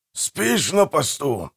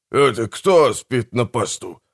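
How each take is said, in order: First: Slow, higher-pitched reproach; reproachful question. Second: Slow, indignant echo question; indignant retort. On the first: Manfred finds his brother asleep on watch, reproachful. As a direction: chide slowly, in disbelief. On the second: Accused brother answers the charge of sleeping, indignant. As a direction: throw the accusation straight back, leaning on кто. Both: A narrator's reading.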